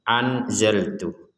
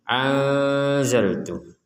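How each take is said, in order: First: The n is pronounced fully and clearly. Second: The n is blurred, partly nasal. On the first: The speaker calls it wrong. "Kalau dibaca jelas" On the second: The speaker calls it right. "ini antara jelas dan dengung"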